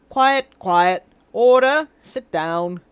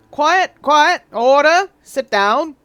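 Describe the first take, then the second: First: English RP judge demanding order; received pronunciation judge. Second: Put-on loud gavel call in an old-timey Southern drawl; old Southern courtroom call to order; wrong judge accent. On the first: Acted. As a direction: bark for order as a stuffy British judge. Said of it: "Let's find received pronunciation". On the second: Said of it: "sorry, wrong, wrong judge accent".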